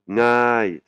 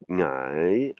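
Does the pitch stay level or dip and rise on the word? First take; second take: level; dip and rise. First: The pitch stays level through the word. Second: The pitch rises, falls, then rises again. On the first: The speaker calls it wrong. "c'est pas ngai" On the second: The speaker calls it right. "elle monte, elle, elle descend, elle remonte"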